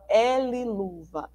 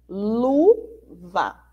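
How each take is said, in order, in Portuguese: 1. A primeira letra é falada pelo nome dela. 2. A primeira letra é falada como um som simples. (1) "a gente não fala L-luva" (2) "a gente fala luva"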